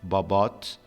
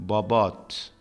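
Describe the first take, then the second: The two takes are said the same way.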